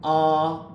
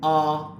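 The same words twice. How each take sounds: First: The vowel is tense with steady pitch. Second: The vowel is tense with steady pitch.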